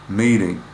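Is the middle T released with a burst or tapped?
tapped. The T is a quick tap without burst.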